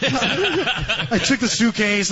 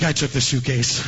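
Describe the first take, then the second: First: "I took the suitcase" said slowly through a laugh, higher. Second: Said in the usual way. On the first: Real, not acted.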